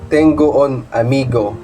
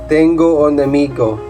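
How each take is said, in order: No difference in how they are said.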